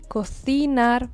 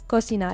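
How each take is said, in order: First: The c sounds like th, tongue between teeth. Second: The c sounds like a plain s. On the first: This is how it is said in Spain. "in Spain they pronounce the letter C followed by an I or an E. They pronounce it th" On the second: This is how it is said in Argentina. "in Argentina we say cocinar, like it's an S"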